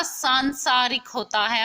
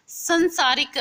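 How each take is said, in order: First: सांसारिक with nasal long सां, slower; correct form. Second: संसारिक with short स, higher and louder; wrong form said. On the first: Teacher gives students the correct सांसारिक, slowly. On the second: Teacher says the wrong form संसारिक to students. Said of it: "संसारिक नहीं होता". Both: Shown as a demonstration.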